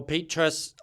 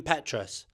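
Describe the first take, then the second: First: "Petras" with a long ee, as PEE-trus; long-ee pronunciation. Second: "Petras" with a short e, as PET-rus; short-e pronunciation. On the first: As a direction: say "Petras" with first vowel as in "Pete". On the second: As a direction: say "Petras" with first vowel as in "pet". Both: Shown as a demonstration. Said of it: "I don't actually know how to pronounce it".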